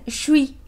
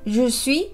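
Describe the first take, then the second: First: Je and suis are fused into one quick syllable. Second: Je and suis are said as separate words. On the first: "cuando lo hablan muy rápido dicen" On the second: "cuando dicen je suis"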